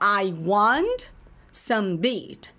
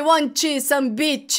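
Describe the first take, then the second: First: The final t is soft and stops short. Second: The final t is released with a ch-like sound. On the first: The speaker calls it right. "Terminou em T, suaviza... ele existe, mas ele para" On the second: The speaker calls it wrong. "Não é I want some beach"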